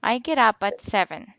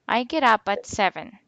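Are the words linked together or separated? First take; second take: linked; linked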